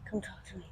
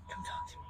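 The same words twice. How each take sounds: First: Said in the usual way. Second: Breathy whispered coaxing; hushed invitation to the horse. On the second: Real, not acted. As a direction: whisper it so she comes close.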